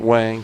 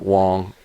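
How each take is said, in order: First: The vowel sounds like the 'a' in 'bang'. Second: The vowel sounds like the 'o' in 'long'. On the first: "some people pronounce it Wang" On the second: "some people pronounce it Wong"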